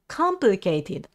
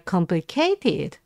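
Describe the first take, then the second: First: The first syllable is clearly stressed. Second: The first syllable is not clearly stressed. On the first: The speaker calls it right. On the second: The speaker calls it wrong.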